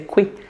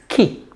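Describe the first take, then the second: First: It begins with a kw sound. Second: It begins with a plain k sound. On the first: The speaker calls it wrong. "Do not say qui" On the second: The speaker calls it right. "It's ki. K like a K"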